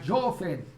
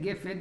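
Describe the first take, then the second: First: Yemenite style: the first vowel sounds like o. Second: Sephardi style: the first vowel sounds like a.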